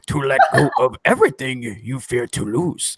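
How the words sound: It is read in a put-on Yoda voice.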